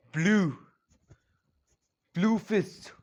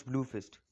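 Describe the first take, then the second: First: Louder, higher battle cry of the move; shouted move name. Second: Said in the usual way. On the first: A narrator's reading. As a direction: call out the attack name. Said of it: "he shouts". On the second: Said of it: "Yeah, he shouts".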